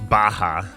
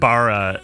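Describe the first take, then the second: First: The middle consonant is an h sound. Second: The middle consonant is a plain r sound. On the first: The speaker calls it right. "it's Baha" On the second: The speaker calls it wrong. "it's not Bara"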